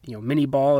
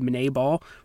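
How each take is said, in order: First: The first word sounds like English 'mini'. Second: The first word follows the French name's pronunciation. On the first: This is the common popular pronunciation. "is what a lot of people pronounce it as" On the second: This matches the inventor's French name. "it should technically be Minet ball"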